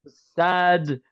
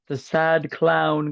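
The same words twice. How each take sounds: First: Mournful sad clown whine. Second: Slow drawn-out sad clown wail; mournful sad clown whine. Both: Pretend. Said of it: "cut that shit out".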